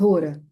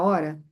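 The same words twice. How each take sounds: First: It is said with Sanskrit-style vowel sounds. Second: It is said with ordinary Portuguese vowel sounds. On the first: "mas no sânscrito a pronúncia é Hora" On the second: "Igual a gente fala hora"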